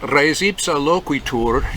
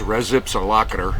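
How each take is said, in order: First: It is said with careful classical Latin pronunciation. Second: It is said in a folksy American cowboy drawl. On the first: "I took Latin and you're supposed to pronounce it that way" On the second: "most kind of cowboy redneck lawyers and judges on the West Coast say, yep, that there's"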